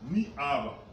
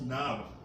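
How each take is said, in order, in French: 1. La voyelle de ni se prononce en entier. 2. La voyelle de ni est coupée. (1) "c'est comme qui dirait ni, ni ava" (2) "on ne prononce pas ça, maintenant on dit nava"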